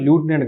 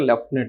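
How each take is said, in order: First: The first syllable sounds like 'loo'. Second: The first syllable sounds like 'lef'. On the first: "లూటినెంట్ governor లేదంటే లెఫ్టినెంట్ మీ ఇష్టం" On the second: "pronunciation is as as your wish"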